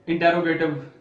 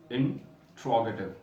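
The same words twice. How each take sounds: First: इंटेरोगेटिव said as "in-te-ro-ge-tiv", louder; wrong pronunciation. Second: इंट्रोगेटिव slow, "in-TRO-ge-tiv" with four syllables; correct pronunciation. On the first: Teacher to students, modelling the wrong pronunciation. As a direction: show the common wrong इंटेरोगेटिव. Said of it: "लेकिन ये लफ्ज़ इंटेरोगेटिव नहीं है". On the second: Teacher to students, slowly modelling the right pronunciation. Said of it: "ये लफ्ज़ है इंट्रोगेटिव". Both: Shown as a demonstration.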